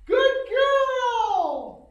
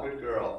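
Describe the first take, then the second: First: Put-on very high, loud, gushing good girl; excited sky-high praise voice; high-pitched praise. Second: Said in the usual way. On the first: Shown as a demonstration. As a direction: squeal it up high to praise the dog. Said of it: "Don't be afraid to use that high-pitched voice". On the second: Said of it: "Again, very dynamic voice".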